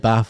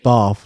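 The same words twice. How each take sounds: First: It is said with a short northern a. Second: It is said with a long southern ah.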